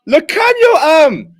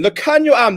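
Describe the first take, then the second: First: Excited yell. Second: Said in the usual way. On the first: Real, not acted. Fan cheering a great offload.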